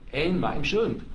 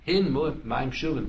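First: The first word begins without an h sound. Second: The first word begins with an h sound. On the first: It sounds like there is no drawn water. The speaker calls it wrong. "they're going to pronounce it in. So it sounds like" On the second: A measure of drawn water is meant. The speaker calls it right. "they're going to say"

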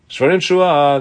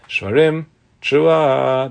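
First: The words run together without a pause. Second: There is a breath pause between the words. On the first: The blower will do it as one sound without a breath. "without a breath" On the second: The blower will take a breath between the sounds. "that means with a breath"

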